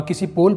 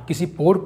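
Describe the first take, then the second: No difference in how they are said.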